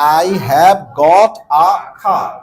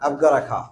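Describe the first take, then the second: First: Every word is said separately and in full. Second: The words are contracted and run together quickly. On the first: "এই কথাকে আমি এইভাবে বলতে পারি" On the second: "এটাকে যদি কন্ট্রাকশন করি"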